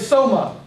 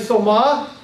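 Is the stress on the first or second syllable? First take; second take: first; second. First: The stress is on the first syllable. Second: The stress is on the second syllable. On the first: The speaker calls it right. "the accent is on the first syllable" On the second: The speaker calls it wrong. "You don't say soma"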